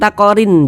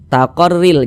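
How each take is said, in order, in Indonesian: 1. Bunyi n dibaca terpisah. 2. Bunyi n melebur ke l berikutnya. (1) "Jangan dibaca takorin" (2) "Kita baca taqarril"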